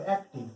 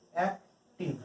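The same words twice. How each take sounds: First: Said in the usual way. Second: অ্যাক্টিভ split in two, ac... tive; syllable by syllable. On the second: Shown as a demonstration. Teacher showing students a longer word, অ্যাক্টিভ said syllable by syllable. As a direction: pause between the syllables of অ্যাক্টিভ. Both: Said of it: "এগুলো one সিলেবলের বেশি word".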